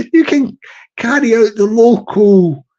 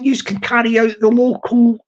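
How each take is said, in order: First: Said in the usual way. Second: "yous" said with a clear plural yous; dialect yous. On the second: Shown as a demonstration. To the viewers, the local dialect form "yous". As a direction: say "yous can", Belfast style.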